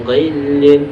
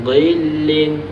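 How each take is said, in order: The two takes are said the same way.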